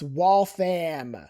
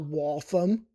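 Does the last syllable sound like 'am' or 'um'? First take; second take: am; um. First: The last syllable sounds like 'am'. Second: The last syllable sounds like 'um'. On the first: The speaker calls it right. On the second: The speaker calls it wrong. "It's not Waltham"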